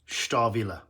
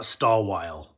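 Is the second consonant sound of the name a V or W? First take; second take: V; W. First: It has a v sound and a voiced final e. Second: It has a w sound and a silent final e. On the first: The speaker calls it right. "This is pronounced with a V sound" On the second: The speaker calls it wrong. "It's not Stallwile"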